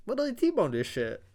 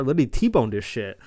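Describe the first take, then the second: First: Squeaky, much higher repeat; high-pitched disbelief. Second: Loud, punched exclamation; emphatic disbelief. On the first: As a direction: echo it in a silly high voice. Repeats crash in silly high voice. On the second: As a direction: hammer it out in amazement. Amazed recap of car crash. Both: Real, not acted.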